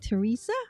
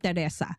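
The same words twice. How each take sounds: First: The name is said with American English vowels. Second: The name is said with Filipino English vowels. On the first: "in the U S, it- it's like Teresa" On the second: "I'm from the Philippines. We call it Teresa"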